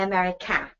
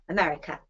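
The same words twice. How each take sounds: First: The final vowel is a full, strong vowel. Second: The final vowel is a weak uh sound. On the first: The speaker calls it wrong. "We don't say America" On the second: The speaker calls it right. "we say Americ, uh"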